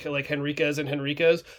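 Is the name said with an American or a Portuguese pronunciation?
American. The name is read with an American pronunciation. "if you were to read it phonetically, like us as Americans"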